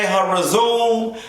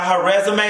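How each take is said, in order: First: "resume" said as "re-ZOOM", drawn out; playful mispronunciation. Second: Said in the usual way. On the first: Acted. Host joking about cast member's profile, "resume" as drawn-out re-ZOOM. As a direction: stretch "resume" into a long re-ZOOM, dropping the final AY.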